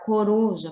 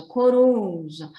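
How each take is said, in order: First: Said in the usual way. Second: CORUJA with a long, loud RU; stressed syllable drawn out. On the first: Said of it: "na hora que você for pronunciar". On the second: Shown as a demonstration. Teacher showing pupils the strong syllable, stretched stress on RU. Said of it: "ele ficou um pouquinho mais longo".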